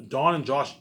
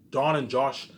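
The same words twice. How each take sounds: The two takes are said the same way.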